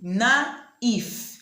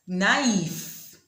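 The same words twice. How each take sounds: First: Naif repeated higher and louder, na-if; French naïf. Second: Naif slowly in two syllables, na-if; French naïf. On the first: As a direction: stress naif as a model. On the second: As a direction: model naif slow. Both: Shown as a demonstration. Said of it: "it is pronounced".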